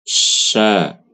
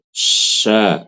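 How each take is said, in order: Both takes have the same delivery.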